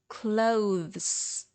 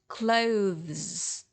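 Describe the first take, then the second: Both takes have the same delivery.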